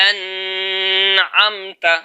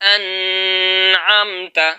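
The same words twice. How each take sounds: Both takes have the same delivery.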